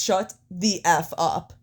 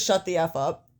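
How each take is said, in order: First: "Shut the F up" slowed right down, word by word; slow, literal emphasis. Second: Said in the usual way. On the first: Retold or imitated. Fan quoting wrestler's censored line, "Shut the F up" in slow emphasis. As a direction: spell out "Shut the F up" slowly, each word set apart. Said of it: "Like, he literally says". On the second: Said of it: "And then he says".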